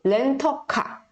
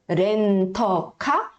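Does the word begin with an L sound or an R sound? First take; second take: L sound; R sound. First: The first consonant sounds like an L. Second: The first consonant sounds like an R. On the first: "ou LA" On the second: "pronunciado com som de R"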